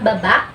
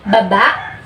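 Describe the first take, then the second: First: The word is said quickly and clipped. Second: The word is said slowly and gently. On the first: "medyo mabilis siya" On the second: "medyo malumanay ang pagbigkas"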